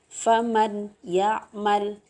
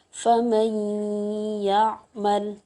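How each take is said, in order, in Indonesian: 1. Huruf n dibaca terpisah tanpa dengung sengau. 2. Huruf n menyatu menjadi y dengan dengung sengau. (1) "Tidak boleh kita baca" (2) "maka cara membacanya adalah dengung"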